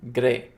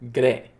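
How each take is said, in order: First: The R is rolled with a trill. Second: The R is rolled with a trill.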